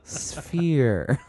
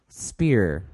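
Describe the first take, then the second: First: The word begins with an f sound. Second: The word begins with a plain p sound. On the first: The speaker calls it right. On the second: The speaker calls it wrong. "But then he couldn't say sphere. He said"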